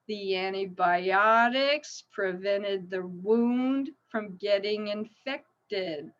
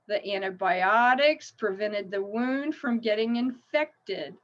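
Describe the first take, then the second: First: The sentence is spoken at a slow pace. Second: The sentence is spoken at a faster pace. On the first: "I'll go slow" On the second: "A little faster"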